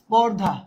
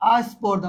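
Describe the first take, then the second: First: The word begins directly with the consonant cluster. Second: An extra vowel is added before the consonant cluster.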